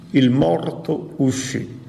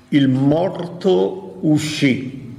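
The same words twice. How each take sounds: First: Said in the usual way. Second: Very slow, each word weighed: "Il morto uscì"; drawn-out, solemn "Il morto uscì"; slow emphasis. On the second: Shown as a demonstration. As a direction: let "Il morto uscì" sink in slowly. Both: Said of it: "Attenzione alle parole".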